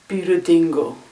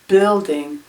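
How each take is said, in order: First: It is said with extra vowels added. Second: It is said with no added vowels.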